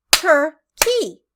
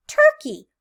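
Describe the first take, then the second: First: Turkey split into two beats, TUR, then KEY; Turkey pulled apart as tur-key, both halves distinct; syllable by syllable. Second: Said in the usual way. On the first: Shown as a demonstration. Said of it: "Two claps".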